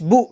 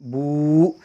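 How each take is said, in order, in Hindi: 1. स्वर छोटा रखा जाता है। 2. स्वर लंबा रखा जाता है। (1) "बा पेश" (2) "इनकी आवाज़ को थोड़ा सा उससे लंबा करना है"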